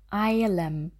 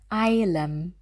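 First: The middle consonant is an L sound. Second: The same.

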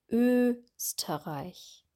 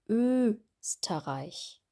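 Both takes have the same delivery.

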